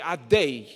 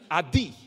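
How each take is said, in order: First: The vowel after the d sounds like ay. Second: The vowel after the d sounds like ee. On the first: The speaker calls it right. "or chelam" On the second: The speaker calls it wrong. "like it's a chirik, as if it's a chirik"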